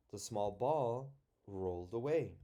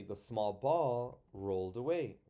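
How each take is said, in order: First: Small ball rolled away read with a break after ball; chunked with a pause. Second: Said in the usual way. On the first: Shown as a demonstration. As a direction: pause after ball, then finish the line. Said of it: "So maybe there". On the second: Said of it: "if you had to".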